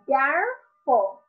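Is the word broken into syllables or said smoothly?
smoothly. The word is said smoothly as one unit.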